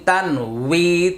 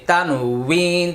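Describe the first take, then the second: No difference in how they are said.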